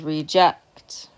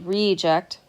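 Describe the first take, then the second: First: The stress is on the second syllable. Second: The stress is on the first syllable. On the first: It is a verb. "I'm stressing on the second syllable" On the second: It is a noun. "The stress is on the first syllable"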